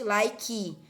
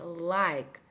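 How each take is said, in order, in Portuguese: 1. Ela é dita com sotaque do português brasileiro. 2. Ela é dita com sotaque inglês. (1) "tem gente que faz literalmente like" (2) "Olha a diferença"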